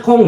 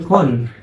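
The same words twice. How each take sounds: First: "kong" ending in a velar ng; nasal ng. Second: "kon" ending in a front n sound; plain n, wrong. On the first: Teacher shows students the correct reading, with a velar ng. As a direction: say "kong" with the back ng sound. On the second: Teacher shows students the wrong reading, with a plain n. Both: Shown as a demonstration.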